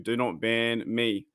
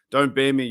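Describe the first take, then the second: First: Slow "Do not ban me" with "not" leaned on, softer; stress on not. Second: Said in the usual way. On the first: Acted. Streamer mock-pleading with YouTube, slow and stressing not. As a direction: spell it out slowly, hitting "not".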